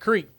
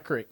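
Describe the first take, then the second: First: The vowel is long, as in 'seek'. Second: The vowel is short, as in 'sick'. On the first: The speaker calls it right. "it's a creek" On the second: The speaker calls it wrong. "not a creek"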